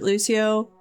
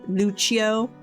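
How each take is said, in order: First: The name is said in an anglicized way. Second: The name is said in an Italian way. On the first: This is the speaker's own habitual way of saying it. The speaker calls it wrong. "I pronounced it Lucio" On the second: This is how the name was read in the audiobook. The speaker calls it right. "The audiobook then was pronouncing it Lu- Lucio, which actually makes more sense because it was like an Italian last name"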